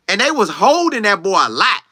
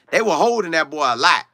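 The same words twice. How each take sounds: First: Said in the usual way. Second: Quick grammar fix with "were"; self-correcting grammar. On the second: Shown as a demonstration. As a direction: swap in "were" for "was", said plainly as a fix.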